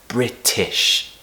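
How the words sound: It is said in a British accent. The speaker calls it right. "If you want British pronunciation, pronounce the word British as"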